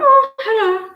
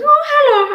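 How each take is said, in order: First: Own greeting, imitated. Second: Imitating the lad's greeting. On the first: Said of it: "I went". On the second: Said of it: "And he goes".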